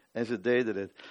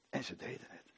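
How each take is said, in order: First: Said in the usual way. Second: Whispered, almost voiceless. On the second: Acted. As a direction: breathe it out in awe. Repeated line, first whispered.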